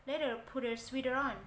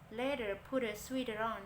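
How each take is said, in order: The two takes are said the same way.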